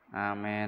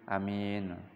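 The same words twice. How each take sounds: First: The long first vowel leans toward e. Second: The first vowel is a short a. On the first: "dibaca panjang tapi dibaca imalah" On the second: "Yang kedua dibaca pendek hamzanya"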